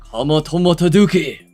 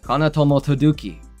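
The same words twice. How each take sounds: First: The name is said in a put-on accent. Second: The name is said in his normal accent.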